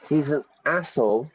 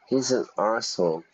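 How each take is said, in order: First: The rude word is said as American 'ass'. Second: The rude word is said as British 'arse'. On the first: "Americans say ass" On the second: "I say arse"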